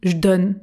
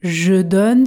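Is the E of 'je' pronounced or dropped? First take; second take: dropped; pronounced. First: The E of "je" is dropped. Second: The E of "je" is pronounced.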